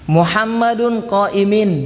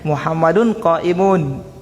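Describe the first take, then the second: First: The last word ends with an -in sound. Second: The last word ends with an -un sound. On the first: The speaker calls it wrong. "Kalau dia bilang Muhammadun qaimin, berarti dia lahan" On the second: The speaker calls it right. "yang betul"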